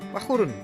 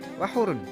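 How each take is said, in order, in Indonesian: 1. Vokal setelah h dibaca pendek. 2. Vokal setelah h dibaca pendek.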